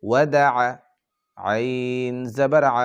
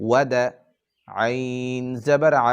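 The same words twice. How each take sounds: No difference in how they are said.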